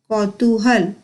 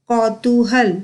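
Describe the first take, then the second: Both takes have the same delivery.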